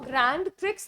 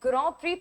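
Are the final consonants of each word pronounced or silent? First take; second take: pronounced; silent. First: The final d and x are pronounced. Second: The final d and x are silent. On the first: The speaker calls it wrong. "इसको ग्रैंड प्रिक्स नहीं pronounce करते" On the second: The speaker calls it right. "इसको हम ग्रॉ प्री pronounce करते हैं"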